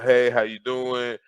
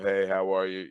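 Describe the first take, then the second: First: It is said in an upbeat, eager way. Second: It is said in a relaxed, laid-back way.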